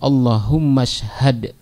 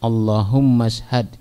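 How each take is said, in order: First: The second word is joined on, dropping its vowel. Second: The second word is joined on, dropping its vowel.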